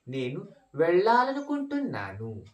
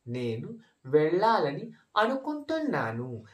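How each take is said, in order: First: It is said faster, with words run together. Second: It is said at a normal, unhurried speed.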